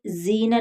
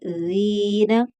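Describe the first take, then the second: First: ज़ीना said quickly with a short vowel; short ज़ीना, wrong way. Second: ज़ीना with the long vowel stretched out slowly; drawn out ज़ीना. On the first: Teacher showing students the wrong short ज़ीना. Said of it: "ज़ीना नहीं पढ़ेंगे". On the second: Teacher showing students the right, stretched ज़ीना. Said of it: "खींच कर पढ़ेंगे". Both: Shown as a demonstration.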